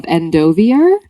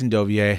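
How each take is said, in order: First: Endovier ending in an R sound, rising doubtfully; ends in -eer. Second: Endovier ending in -ay, R silent; French-style ending. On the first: Real, not acted. Co-host reading chapter one, Endovier with a final -er. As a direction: say Endovier as en-doh-vee-er, questioning. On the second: Shown as a demonstration. Host correcting co-host, Endovier with a silent R and -ay ending. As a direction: say Endovier as en-doh-vee-ay. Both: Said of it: "I think it's Endovier".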